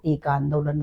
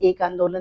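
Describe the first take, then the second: First: The first word is said 'eka', with final vowel. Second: The first word is said 'ek', without final vowel. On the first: The speaker calls it right. "इसको एका आंदोलन बोलते हैं" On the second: The speaker calls it wrong. "ये एक आंदोलन नहीं"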